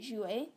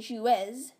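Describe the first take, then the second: First: The final Z is silent. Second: The final Z is sounded aloud. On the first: The speaker calls it right. "you say jouer, the Z is silent" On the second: The speaker calls it wrong. "you don't say jouez"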